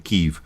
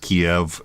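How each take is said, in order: First: The name is pronounced in the Ukrainian style. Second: The name is pronounced in the Russian style. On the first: This is the local form of the name. "pronounce it the Ukrainian way" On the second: This is the form learned with Russian. "I learned it as Kiev"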